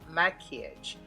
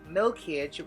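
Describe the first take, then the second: First: The word begins with a 'mak' sound. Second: The word begins with a 'milk' sound. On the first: The speaker calls it right. "which means it's pronounced maquillage" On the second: The speaker calls it wrong. "why I keep on saying milkage"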